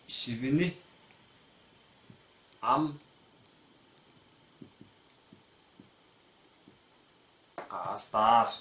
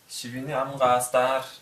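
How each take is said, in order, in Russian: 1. Слова произносятся отдельно, без связующего g. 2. Произнесено быстро и слитно, с озвончённым звуком g.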